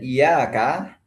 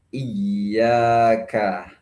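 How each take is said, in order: First: The y sound is short and single. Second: The y sound is held and doubled. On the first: The speaker calls it wrong. "kalau tasdidnya hilang menjadi iyaka" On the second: The speaker calls it right. "bacaan yang benar adalah iyyaka"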